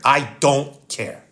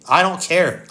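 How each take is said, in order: First: "I don't care" drawn out, each word separate; slow right down on "I don't care"; slow emphatic finality. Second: Said in the usual way. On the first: Real, not acted. Son putting his father first, "I don't care" slow and final.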